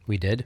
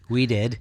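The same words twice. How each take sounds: First: The voice rises at the end like a question. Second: The voice falls at the end like a statement. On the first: It sounds like a surprised question. The speaker calls it wrong. "Sorry, inflection is hard" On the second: It is an agreement. The speaker calls it right. "I was agreeing"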